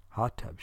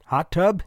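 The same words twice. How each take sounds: First: "Hot tub" softer, falling at the end; low-key "Hot tub" with a falling close; agreeing reply. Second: "Hot tub" louder and higher, rising at the end; questioning suggestion. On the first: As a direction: answer "Hot tub" quietly, settling it. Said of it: "she replied". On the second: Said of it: "he suggested". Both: A narrator's reading.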